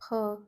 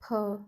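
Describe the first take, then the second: Both takes have the same delivery.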